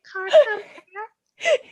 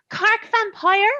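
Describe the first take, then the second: First: "Cork vampire" very slow and high, "Cork" drawn out as "Kark"; Cork accent. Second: "Cork vampire" slow and high, "Cork" drawn out in a Cork lilt; Cork accent. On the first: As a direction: stretch "Cork" like a Cork local. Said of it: "Oh God, they would say it that way". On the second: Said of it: "he would talk like this 'cause he's from Cork". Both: Retold or imitated.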